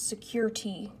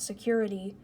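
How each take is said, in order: First: The word ends with a clear letter T sound. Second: The word ends with the ordinary 'ity' sound. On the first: It is the name of the toy. The speaker calls it right. "S E C U R dash T. So it's security" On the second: It is the ordinary word. The speaker calls it wrong. "not security"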